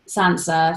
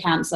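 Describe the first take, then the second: First: The word begins with an s sound. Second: The word begins with a k sound. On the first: This is the speaker's own way of saying it. "I say Sansa" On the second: This is the usual way others say it. "I don't say Cancer"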